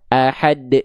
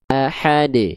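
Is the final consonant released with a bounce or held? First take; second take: held; bounced. First: The final d is held and cut off. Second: The final d is released with a bounce. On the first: The speaker calls it wrong. "Jangan dibaca" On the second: The speaker calls it right. "yang harusnya kita baca"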